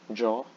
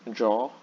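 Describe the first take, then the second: Both takes have the same delivery.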